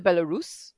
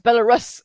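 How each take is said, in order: First: "Belarus" ending in a long "roos"; own pronunciation of Belarus. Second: Loud "Belarus" ending in a short "russ", like rusks; American YouTuber's pronunciation. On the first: Shown as a demonstration. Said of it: "but I call it Belarus". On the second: Retold or imitated. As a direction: mimic an American saying "Belarus" as Bela-RUSS. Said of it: "I know you're American".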